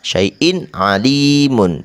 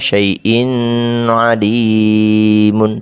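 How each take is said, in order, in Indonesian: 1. Bunyi 'in' pendek dan tegas. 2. Bunyi 'in' dipanjangkan lebih lama. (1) "Tegas, cepat" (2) "Tidak boleh"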